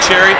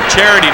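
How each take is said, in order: First: The word is squeezed into two syllables. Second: The word is said with all three syllables. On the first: The speaker calls it wrong. "not cherry" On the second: The speaker calls it right. "It's charity"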